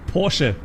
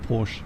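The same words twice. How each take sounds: First: The name is said with a non-English pronunciation. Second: The name is said with an English pronunciation. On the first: The speaker calls it right. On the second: The speaker calls it wrong.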